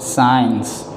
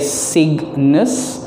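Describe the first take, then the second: First: No g sound is pronounced in the word. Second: A g sound is pronounced in the word. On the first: The speaker calls it right. "G silent" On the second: The speaker calls it wrong. "do not say Cygnus"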